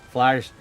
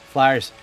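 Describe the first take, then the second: The two takes are said the same way.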